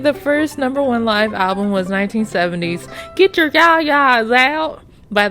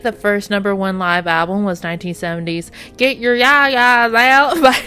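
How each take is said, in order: First: It is said in a country accent. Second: It is said in a neutral accent.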